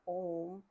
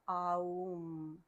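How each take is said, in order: First: It is said as a short, single 'om' sound. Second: It is drawn out through 'a', 'u' and 'm'. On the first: The speaker calls it wrong. "the pronunciation of that is not Om" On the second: The speaker calls it right. "it's Aum"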